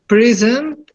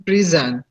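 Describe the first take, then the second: First: "present" with the stress on PRE, rising pitch; stress on first syllable. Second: "present" with the stress on SENT, falling; stress on second syllable. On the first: Student shows the teacher the noun stress, PREsent. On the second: Student shows the teacher the verb stress, preSENT. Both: Shown as a demonstration. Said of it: "pronounce them according to the difference in the meaning".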